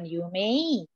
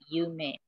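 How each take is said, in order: First: The word ends with an 'ei' glide. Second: The word ends with a plain 'e' sound. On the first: The speaker calls it wrong. "dilafalkan dia bukan Yumei" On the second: The speaker calls it right. "melainkan Yume"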